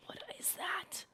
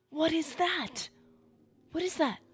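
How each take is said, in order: First: High, drawn-out, soft disbelief; hushed alarm. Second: High, loud, startled cry; loud alarm. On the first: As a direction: breathe it out high and slowly in shock. First sight of strange creature. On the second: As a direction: cry it out in shocked disbelief. Alarm at strange creature grows. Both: Real, not acted.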